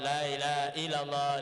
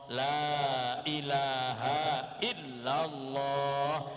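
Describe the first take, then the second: First: The sounds are rushed and run together. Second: Every sound is clear, with long vowels. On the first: The speaker calls it wrong. "Tidak boleh kita itu seenaknya" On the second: The speaker calls it right. "harus betul-betul kita tampakkan"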